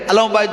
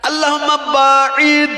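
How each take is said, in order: First: The word is said as 'bait'. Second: The word is said as 'ba'id'. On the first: Asks for distance from one's house. The speaker calls it wrong. "আল্লাহুম্মা বাইত বাইনি নাই" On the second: Asks for distance from one's sins. The speaker calls it right. "কি আছে?"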